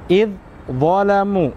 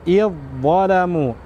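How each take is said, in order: First: The two dh sounds are pronounced separately. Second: The two dh sounds merge into one doubled sound. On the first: The speaker calls it wrong. "Jadi bukan id zalamu, salah ya" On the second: The speaker calls it right. "langsung dimasukkan dengan cara kami atau sempurna"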